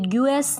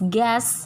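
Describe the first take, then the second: First: A 'yoo' sound follows the g. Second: No 'yoo' sound follows the g. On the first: The speaker calls it wrong. "ये ग्यूएस नहीं होता" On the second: The speaker calls it right. "It's गैस"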